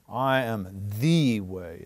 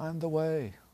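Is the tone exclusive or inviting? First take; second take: exclusive; inviting. First: It sounds stern, closed and exclusive. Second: It sounds warm, open and inviting. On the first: This is the only way and nothing else counts. "in the sense of the only, and don't even think about anything else" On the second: An offer of hope that welcomes people in. "a more inviting, embracing tone"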